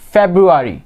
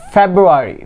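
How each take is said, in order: Both takes have the same delivery.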